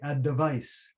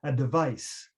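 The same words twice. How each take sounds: The two takes are said the same way.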